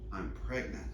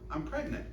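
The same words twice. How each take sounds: First: It is said heavily, with strain and effort. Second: It is said lightly, like surprising fresh news. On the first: She is about to give birth. "She's ready to go" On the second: She has only just learned she is expecting. "Oh, you just found out?"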